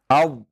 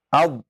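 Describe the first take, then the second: The two takes are said the same way.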